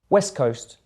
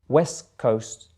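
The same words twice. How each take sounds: First: It is said at normal speed. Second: It is said a little more slowly. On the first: "once at normal speed" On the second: "the second time a little bit slower"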